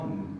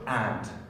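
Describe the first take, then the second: First: The word is said weakly and reduced. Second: The word is said fully and clearly. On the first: The speaker calls it right. "It's like just that sound" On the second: The speaker calls it wrong. "It's not and"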